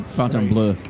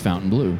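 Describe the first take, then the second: First: The name is said with a French-style pronunciation. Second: The name is said with an American pronunciation. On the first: The speaker calls it wrong. "Because I kept calling it Fontainebleau" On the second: The speaker calls it right. "Just Americanize it"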